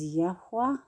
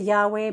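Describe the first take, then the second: First: The name is said with a soft, breathy sound. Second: The name is said plainly without added breath. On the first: The speaker calls it right. "the correct pronunciation is Yahweh. It's more of a breath" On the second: The speaker calls it wrong. "We can say Yahweh"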